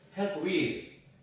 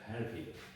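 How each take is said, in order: First: The two words are said separately and fully. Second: The p runs straight into a weak with. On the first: The speaker calls it wrong. "이렇게 발음하면 안 되고요" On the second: The speaker calls it right. "이 P하고 연결해갖고 헬피드가 됩니다"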